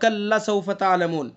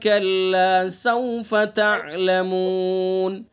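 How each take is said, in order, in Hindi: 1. kalla का अंत छोटे, झटके से कटे हुए स्वर से होता है। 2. kalla का अंत लंबे, खिंचे हुए स्वर से होता है।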